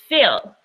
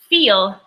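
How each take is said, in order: First: The vowel is a short lax i. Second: The vowel is a long tense ee. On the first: The speaker calls it wrong. "they will go into fill" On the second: The speaker calls it right. "instead of saying feel"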